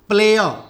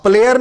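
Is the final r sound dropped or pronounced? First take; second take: dropped; pronounced. First: The final r becomes a soft uh vowel. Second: The final r is clearly pronounced. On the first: The speaker calls it right. "आर क्या हो जाएगा, अ" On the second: The speaker calls it wrong. "प्लेयर नहीं"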